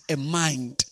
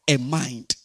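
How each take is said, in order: Both takes have the same delivery.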